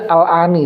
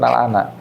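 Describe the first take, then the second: First: The word ends with an i vowel. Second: The word ends with an a vowel. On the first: The speaker calls it right. "yang betul baca al-ani" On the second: The speaker calls it wrong. "bukan al-ana"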